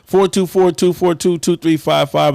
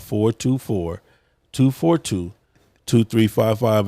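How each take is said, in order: First: The number is said at normal, faster speed. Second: The number is said slowly.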